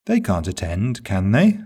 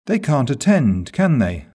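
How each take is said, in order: First: "can they?" rising on "they", genuinely asking; "can they?" rising like a true question; rising tag. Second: "can they?" falling, stating what you know; "They can't attend" slow, then "can they?" dropping; falling tag. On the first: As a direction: lift "they" at the end, wanting an answer. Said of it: "Rising intonation on the tag indicates a genuine question". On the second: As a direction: let "can they?" come down, confident. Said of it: "falling intonation on the question tag". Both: Shown as a demonstration.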